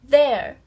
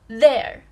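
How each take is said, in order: Both takes have the same delivery.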